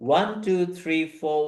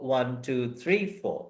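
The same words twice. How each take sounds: First: The beat falls on the first word. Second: The beat falls on the third word. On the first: "first বিট" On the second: "থার্ডটাতে গিয়ে বিট"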